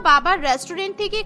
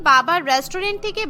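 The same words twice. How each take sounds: The two takes are said the same way.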